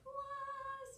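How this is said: It is said in a very high pitch.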